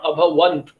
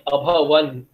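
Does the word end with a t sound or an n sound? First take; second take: t sound; n sound. First: The word ends with a final t sound. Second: The word ends in n with no final t. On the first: The speaker calls it wrong. "not abhavant" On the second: The speaker calls it right. "They all wear abhavant"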